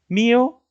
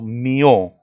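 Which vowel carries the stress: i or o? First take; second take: i; o. First: The stress falls on the i. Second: The stress falls on the o. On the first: The speaker calls it right. "¿En la I o en la O?" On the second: The speaker calls it wrong. "¿En la I o en la O?"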